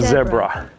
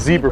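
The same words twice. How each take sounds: First: It is said with a British pronunciation. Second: It is said with an American pronunciation. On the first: "anywhere that British Empire touched is definitely saying zebra" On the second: "The Americans are like, no, it's a zebra"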